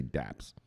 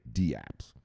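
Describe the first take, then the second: First: One-beat "daps" for dapps; dapps as one word. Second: D apps in two unhurried beats, dee then apps; D apps, letter D separate. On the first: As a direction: say dapps in one syllable, rhyming with caps. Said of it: "some people just say dapps". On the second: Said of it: "I say D apps". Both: Shown as a demonstration.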